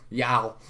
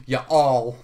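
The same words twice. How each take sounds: First: "Y'all" squeezed into one drawn syllable, American style; Southern y'all. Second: "You all" said as two full words, loud and clear; two separate words, "You" then "all"; you all, spelled out. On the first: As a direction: say "Y'all" like a Texan. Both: Shown as a demonstration.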